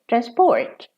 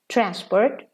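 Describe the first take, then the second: First: The stress is on the last syllable. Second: The stress is on the first syllable. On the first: It is used as a verb. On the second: It is used as a noun.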